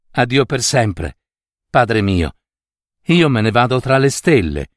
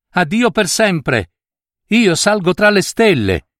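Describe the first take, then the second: First: Gentle, tender farewell; affectionate. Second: Higher, ringing farewell cry; girl calling down to her family, higher; called farewell. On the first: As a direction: daughter saying a mild, affectionate farewell to father. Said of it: "gli disse affettuosamente la fanciulla". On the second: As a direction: call goodbye up into the sky. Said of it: "ed ella gridò". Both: A narrator's reading.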